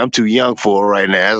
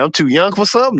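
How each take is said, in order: First: Said in the usual way. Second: Higher, incredulous question on "something"; amused disbelief at being called young; surprised. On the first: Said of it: "He said". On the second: Retold or imitated. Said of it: "That made me feel a little good".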